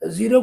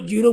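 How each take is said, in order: First: The word begins with a z sound. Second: The word begins with a j sound. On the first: The speaker calls it right. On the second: The speaker calls it wrong.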